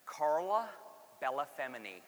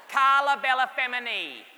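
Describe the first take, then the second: First: Carla Bellafemini in a flat American accent; American pronunciation. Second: Carla Bellafemini with an Italian accent, louder and higher; proud Italian-accented Carla Bellafemini; Italian pronunciation. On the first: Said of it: "I'm gonna say it in American". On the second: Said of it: "how Italian". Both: Shown as a demonstration.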